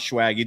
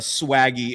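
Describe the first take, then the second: First: It begins with an sh-like sound. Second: It begins with a plain s sound. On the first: The speaker calls it wrong. "and not" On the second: The speaker calls it right.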